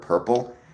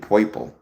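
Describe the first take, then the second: First: It is said in a plain, standard accent. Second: It is said in a New York accent.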